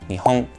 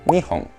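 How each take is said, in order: First: It has the pitch accent of the country name. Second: It has the pitch accent of the counter word. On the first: The country Japan. "Japón" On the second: Two long cylindrical objects. "Dos objetos cilíndricos"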